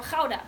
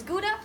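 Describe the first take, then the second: First: "Gouda" said as KHOW-duh; Dutch-style pronunciation. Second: "Gouda" said as GOO-duh; English-style "Gouda", first syllable like "goo"; anglicised pronunciation. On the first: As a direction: say "Gouda" with a throaty kh and an ow vowel. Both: Shown as a demonstration. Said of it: "how do you guys pronounce this word".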